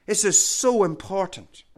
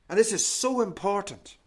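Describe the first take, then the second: First: "so" pressed louder on the repeat. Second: Said in the usual way. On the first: Shown as a demonstration. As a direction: lean into "so" the second time.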